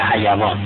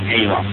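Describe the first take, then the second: First: The word has an Arabic pronunciation. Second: The word has a Persian pronunciation. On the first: "عرب میگه حیوان" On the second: "ما میگیم حیوان"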